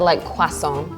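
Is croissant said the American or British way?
British. Croissant is said the British way, with wa. The speaker calls it right. "we've always said ... With the wa sound"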